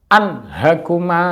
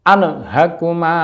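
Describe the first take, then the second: First: The n closes cleanly with no added vowel. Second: An extra vowel sound follows the n. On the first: The speaker calls it right. "nun sukun an sama dengan an" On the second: The speaker calls it wrong. "bunyi ne-nya ini yang tidak boleh"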